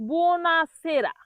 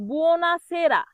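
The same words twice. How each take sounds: No difference in how they are said.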